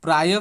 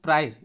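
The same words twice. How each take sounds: First: प्राय with a breath ending, "प्रायः"; visarga sounded. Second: प्राय said simply, with no "h" at the end; visarga dropped. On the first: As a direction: close प्राय on an extra "ah" syllable. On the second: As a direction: end प्राय cleanly on the y, as "praay". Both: Shown as a demonstration. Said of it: "इस तरह से simple ही लिखेंगे".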